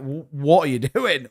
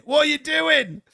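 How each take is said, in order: First: Incredulous question broken by a laugh; laughing disbelief. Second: Much higher, squeaky disbelieving repeat; mock baffled squeal. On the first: Retold or imitated. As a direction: ask it while laughing. Baffled quote, first take. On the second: Baffled quote, second take.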